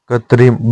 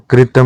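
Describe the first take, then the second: First: कृत्रिम with tri; correct form. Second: कृतम ending in -tam; wrong form. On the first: Teacher giving the correction, कृत्रिम ending in -trim. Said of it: "होता है". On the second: Teacher showing learners the mistake, कृतम without second r. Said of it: "नहीं होता". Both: Shown as a demonstration.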